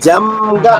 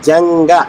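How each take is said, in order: First: The middle nasal is an m with closed lips. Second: The middle nasal is ng with open lips. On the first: The speaker calls it wrong. "అనకూడదు" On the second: The speaker calls it right. "కొంగ అంటే ఎలాగో జంగ అంటే కూడా అదే"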